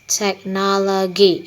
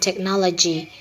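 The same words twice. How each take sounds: First: The consonant in -logy is a hard G sound. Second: The consonant in -logy is a J sound. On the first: The speaker calls it wrong. "pronounced as technology instead of the intended" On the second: The speaker calls it right. "the intended word"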